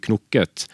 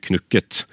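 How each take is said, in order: First: "knukket" said with an o, as knokket; o-pronunciation. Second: "knukket" said with a u, as spelt; u-pronunciation. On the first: Guest explains the form to the host, o-sound in "knukket". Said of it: "særlig med o-uttale". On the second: Guest shows the rejected form, u-sound in "knukket". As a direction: say "knukket" with u, not o. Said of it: "og ikke knukket". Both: Shown as a demonstration.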